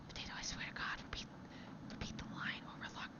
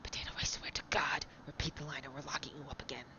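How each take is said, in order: First: It is said with little energy. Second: It is said with lots of energy.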